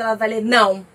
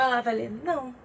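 First: A blunt, louder não; harsh curt no. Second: Softer, easygoing não; relaxed no. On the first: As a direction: read não as a stressed person hears it, sharp and cold. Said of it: "se ela estiver estressada". (não seco e ríspido, como lido por alguém estressado) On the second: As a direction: read não as a calm person hears it, light and friendly. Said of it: "Se ela estiver de boa". (não leve e tranquilo, como lido por alguém de boa) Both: Shown as a demonstration.

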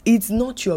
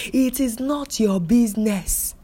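First: Said in the usual way. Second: "It is not your business" slowed and punched, each word set apart; deliberate, stressed "It is not your business"; firm emphatic redo. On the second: Shown as a demonstration. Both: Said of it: "let me sound again".

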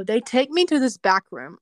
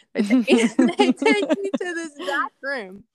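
First: Said in the usual way. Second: High, louder, laughing through the sentence; real laughter riding on the words. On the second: Real, not acted. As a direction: restart the line while cracking up. Laughs at her VIP treatment remark.

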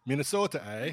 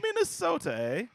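First: Mock Minnesota twang with a drawn eh; a hint of Minnesota accent, louder. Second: Put-on Minnesota accent, Minnesota pitched way up; hammed-up Minnesota accent, squeaky high. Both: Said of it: "regional dialects".

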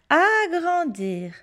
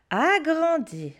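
No difference in how they are said.

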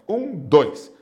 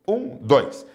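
Both takes have the same delivery.

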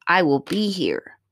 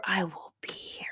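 First: Said in the usual way. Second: Soft whispered promise. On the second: Real, not acted. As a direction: breathe it as a secret promise. Reassuring daughter, repeated whispered.

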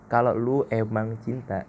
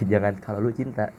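First: Slow, leaning on the word emang in Kalau lu emang cinta; stress on emang. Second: Said in the usual way. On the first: Shown as a demonstration. Correcting himself for listeners, leaning on emang. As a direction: linger on emang and let it land. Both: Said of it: "nah iya, itu pakai emang".

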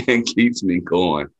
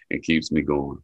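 First: And keeps me going said slowly, pressed and a bit louder; emphatic. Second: Said in the usual way. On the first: Real, not acted. Telling the interviewer what drives him, slow and emphatic. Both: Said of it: "repeated for emphasis".

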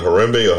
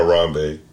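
First: Harambe with middle syllable like "REM"; first pronunciation offered. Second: Harambe with middle syllable like "RAHM"; alternative pronunciation offered. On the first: Unsure host checking a name with co-host, pronounced "huh-REM-bay". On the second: Unsure host checking a name with co-host, pronounced "huh-RAHM-bay". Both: Shown as a demonstration. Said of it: "I don't wanna mispronounce anybody's name".

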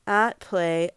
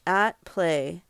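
Both takes have the same delivery.

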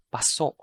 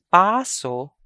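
First: Paso with short PA, stressed SO; stress on second syllable. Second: Paso with long, loud, high PAA; stress on first syllable. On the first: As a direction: clip paso, weight on the last syllable. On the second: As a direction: stretch and lift the first vowel of Paso. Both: Shown as a demonstration. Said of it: "I'm going to read".

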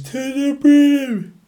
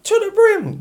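First: Very high, slow, drawn-out "To the brim"; TikTok guy impression. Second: Squeaky high "To the brim" with a falling end; TikTok guy impression. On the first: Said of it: "that guy on TikTok that says". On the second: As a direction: shoot "To the brim" way up high and let it drop. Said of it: "the guy on TikTok just like".

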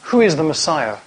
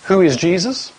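First: "who is the Messiah?" with weight on "who" and a falling end; asking who the Messiah is, tune falling; second reading, who is the Messiah. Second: "Who is Jesus?" asked with a rising end, weight on "Who"; asking who Jesus is, tune rising; first reading, who is Jesus. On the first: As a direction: settle the question "who is the Messiah?" firmly downward. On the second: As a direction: ask "Who is Jesus?" as a real question, lifting at the end. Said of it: "You could hear this ... as an answer to one of two questions". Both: Shown as a demonstration.

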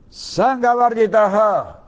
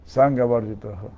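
First: "Sangha Varjitaha" drawn out slowly, much higher and louder, chanted; intoned chant. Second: Said in the usual way. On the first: Acted. Preacher chanting the verse to the congregation, slow and high. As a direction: sing out "Sangha Varjitaha" long and high like a mantra.

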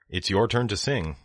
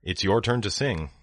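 The two takes are said the same way.

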